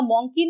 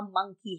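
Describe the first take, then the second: First: मंकी as "MONG-kee"; मंकी with an aw vowel; wrong pronunciation of मंकी. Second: मंकी as "MUNG-kee", lower and softer; मंकी rhyming with "chunky"; correct pronunciation of मंकी. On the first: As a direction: say मंकी with a round o, like donkey. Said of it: "यहाँ मंकी नहीं है". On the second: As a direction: say मंकी with a short uh. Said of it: "यहाँ मंकी है". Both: Shown as a demonstration.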